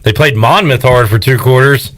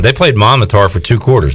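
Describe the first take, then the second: First: It is said in a mocking, sarcastic tone. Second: It is said in a plain, serious tone. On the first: The writer is joking and means the opposite. "like him trying to be funny" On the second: The writer means it literally. "he could be being serious"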